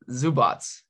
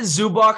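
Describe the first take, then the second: First: The name ends with a ts sound. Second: The name ends with a k sound. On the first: The speaker calls it right. "Yes, good job" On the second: The speaker calls it wrong. "I'm so used to saying Zubac because some people say that"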